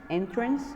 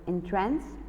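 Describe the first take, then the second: First: The stress is on the first syllable. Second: The stress is on the second syllable. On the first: It means a door or way into a building. "the pronunciation of it as a noun" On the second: It means to captivate or delight. "entrance is a verb"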